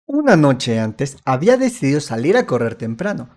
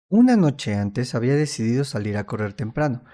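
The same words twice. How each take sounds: First: It is said with lively, varied pitch. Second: It is said in a flat, monotone voice.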